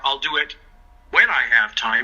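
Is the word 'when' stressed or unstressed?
stressed. The word 'when' is stressed.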